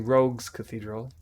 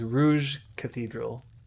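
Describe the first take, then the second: First: The first word sounds like 'rogue's'. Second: The first word sounds like 'rouge'. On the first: The speaker calls it right. "But it was actually Rogue's Cathedral" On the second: The speaker calls it wrong. "I was pronouncing it as Rouge Cathedral"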